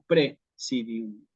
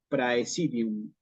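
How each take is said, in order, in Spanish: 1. La primera sílaba tiene una vocal 'e' simple. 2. La primera sílaba tiene el diptongo 'ai'. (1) "En latín eclesiástico decimos presidium" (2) "Cicerone hubiera dicho praesidium"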